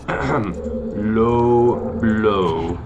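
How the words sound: It is said with a put-on Spanish accent.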